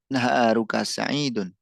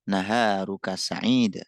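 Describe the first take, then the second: First: The last word ends with an audible -un. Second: The last word stops without an -un ending.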